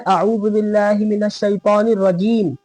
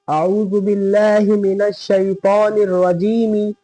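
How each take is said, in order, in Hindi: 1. आखिरी शब्द 'm' व्यंजन पर खत्म होता है। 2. आखिरी शब्द के अंत में एक अतिरिक्त 'i' स्वर है। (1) "जब रुकते हैं" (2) "रजीमी लिखा है ना"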